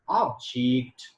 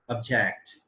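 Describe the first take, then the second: First: It carries the noun stress pattern. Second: It carries the verb stress pattern. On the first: The word is used as a noun. "when I use object as noun" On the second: The word is used as a verb. "and as a verb"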